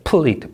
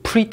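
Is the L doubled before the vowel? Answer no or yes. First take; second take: yes; no. First: The L is doubled before the vowel. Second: The L is not doubled before the vowel. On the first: The speaker calls it right. "받침 있는이죠" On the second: The speaker calls it wrong. "pleat 하면 안 되죠"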